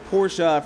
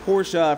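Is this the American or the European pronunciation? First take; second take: European; European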